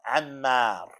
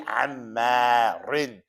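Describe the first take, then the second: First: The word stops short on the r sound. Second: The word ends with a full -in ending. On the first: The reader is stopping at this word. "Now if you were stopping, come on, Ammar" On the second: The reader is continuing through without stopping. "You gotta separate it and pronounce it"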